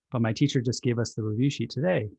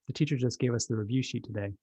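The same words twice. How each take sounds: First: Put-on a mildly exasperated kid explaining; a touch of a fed-up child. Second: Put-on a calm, unbothered child explaining; a lightly voiced, relaxed kid. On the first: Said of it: "The child is a little exasperated". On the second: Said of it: "Child calmly".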